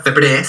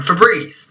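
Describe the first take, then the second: First: "Febreze" with a short Spanish e, "feh-BRESS"; "Febreze" rhyming with Spanish "tres"; one-E pronunciation. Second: "Febreze" with a long ee, "feh-BREEZ"; "Febreze" with the stressed vowel as ee; usual double-E pronunciation. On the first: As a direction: say "Febreze" as spelt with one E, ending in "-bres". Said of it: "una E". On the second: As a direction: say "Febreze" ending like English "breeze". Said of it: "si todos dicen". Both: Shown as a demonstration.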